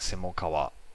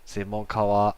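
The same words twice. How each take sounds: First: The pitch drops partway through the word. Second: The pitch stays high through the word. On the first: The speaker calls it wrong. "not like 専門家は" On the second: The speaker calls it right. "I think it will stay like the high pitch accent"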